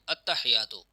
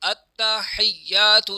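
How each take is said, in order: First: The 't' and 'y' are said single and short. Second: The 't' and 'y' are doubled and held. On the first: The speaker calls it wrong. "अत्तहियात में गलती क्या करते हैं" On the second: The speaker calls it right. "ये अत्ता जो है ये भी मुशद्दद है और या पर भी शद है"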